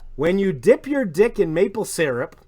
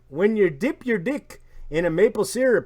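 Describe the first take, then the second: First: It is read in the speaker's ordinary accent. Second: It is read in a put-on Canadian accent.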